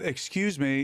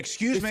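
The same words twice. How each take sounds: First: It is said politely. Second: It is said with hostile annoyance.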